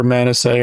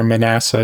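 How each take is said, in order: First: Manasseh as MAN-uh-say; first pronunciation. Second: Manasseh as muh-NASS-uh; alternative pronunciation. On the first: Offering one reading of a scripture name, Manasseh as MAN-uh-say. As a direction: stress the first syllable of Manasseh, ending in SAY. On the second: Offering the other reading of a scripture name, Manasseh as muh-NASS-uh. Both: Shown as a demonstration. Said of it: "depending on how you feel like pronouncing it".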